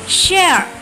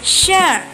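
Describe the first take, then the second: No difference in how they are said.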